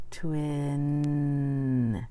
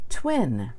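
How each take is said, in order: First: "Twin" drawn out long and smooth, sounds blended; teacher modeling the blended word "Twin"; slow blended twin. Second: Said in the usual way. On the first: Shown as a demonstration. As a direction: stretch "Twin" slowly, joining every sound. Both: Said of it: "Let's say it".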